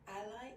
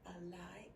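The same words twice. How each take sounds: First: It is said with the noun pronunciation. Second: It is said with the verb pronunciation. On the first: The word names a person or group. "Ally if it's a noun" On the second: The word names an action. "ally if it's used as a verb"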